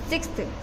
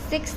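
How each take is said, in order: First: The word ends with a final 'th' sound. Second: The word ends without a final 'th' sound. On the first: The speaker calls it right. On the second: The speaker calls it wrong. "सिक्स नहीं"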